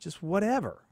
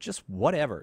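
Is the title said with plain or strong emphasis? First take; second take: strong; plain. First: The title is said with strong, added emphasis. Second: The title is said plainly, without extra emphasis. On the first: The speaker calls it right. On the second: The speaker calls it wrong.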